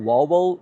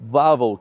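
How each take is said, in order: First: The word starts with a W sound. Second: The word starts with a V sound. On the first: The speaker calls it wrong. "I was pronouncing it Wawel the whole time" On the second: The speaker calls it right. "in Polish the W sounds like a V, so it's actually Wawel"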